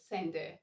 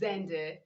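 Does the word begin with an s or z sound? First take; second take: s; z. First: The word begins with an s sound. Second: The word begins with a z sound. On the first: The speaker calls it wrong. "not sender" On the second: The speaker calls it right. "You ought to say Zender"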